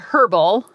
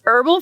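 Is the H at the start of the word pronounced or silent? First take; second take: pronounced; silent. First: The word begins with an audible H sound. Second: The word begins with a vowel, no H sound. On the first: The speaker calls it wrong. "I always want to say the H" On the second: The speaker calls it right. "but it's herbal face foods"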